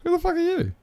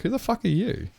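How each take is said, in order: First: Far higher, squealing indignant repeat; shrieking mock outrage. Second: High, indignant mock yell at a stranger; mock outrage. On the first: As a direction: crank it into an over-the-top squeal. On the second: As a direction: pitch it up like an offended stranger squawking. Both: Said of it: "it'd be like".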